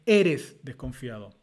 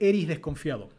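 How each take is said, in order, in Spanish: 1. La primera palabra termina con sonido de s. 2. La primera palabra termina sin sonido de s. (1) "se dice eres" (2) "no se dice eri"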